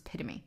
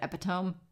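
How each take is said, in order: First: The word is pronounced irregularly, unlike its spelling. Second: The word is pronounced following regular spelling rules. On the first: The speaker calls it right. "it's not the rule. It's it's the exception" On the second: The speaker calls it wrong. "by the rules of English pronunciation, it makes sense that I would think that it was pronounced that way"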